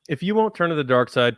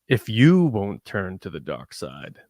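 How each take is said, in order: First: It is read plainly at an ordinary pace. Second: It is spoken slowly and deliberately, with menace. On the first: It comes across as just an okay line. The speaker calls it wrong. "if I just read that myself" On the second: The speaker is trying to needle the listener. The speaker calls it right. "trying to needle Luke a little bit by speaking slowly"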